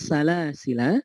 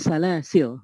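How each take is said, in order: First: The word ends with a long final vowel. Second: The word ends on a consonant. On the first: "dengan isbat ataukah dia di, di menetapkan" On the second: "tidak dipanjangkan"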